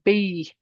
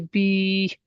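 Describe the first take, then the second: First: A short vowel with a separate y sound. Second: A long stretched vowel with no y sound. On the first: The speaker calls it wrong. "I don't say B" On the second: The speaker calls it right. "No, I say B"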